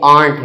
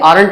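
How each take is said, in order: First: The word is said with one syllable. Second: The word is said with two syllables. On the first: The speaker calls it right. "ये आर्ट है" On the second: The speaker calls it wrong. "ये आरंट नहीं है"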